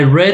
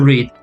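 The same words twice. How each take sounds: First: The vowel is short, rhyming with red. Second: The vowel is long, rhyming with reed. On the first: The action happened in the past. "the second one, I'm talking about the past. it's like the color, red" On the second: The action happens in the present. "when you talk about present, the pronunciation is going to be read"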